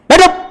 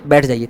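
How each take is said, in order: First: It is said with strong emotional force. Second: It is said in a calm, normal way.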